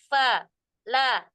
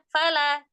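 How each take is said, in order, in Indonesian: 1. Kedua suku kata diucapkan terpisah dengan jeda. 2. Kedua suku kata disambung tanpa jeda. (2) "Tapi bacanya fala"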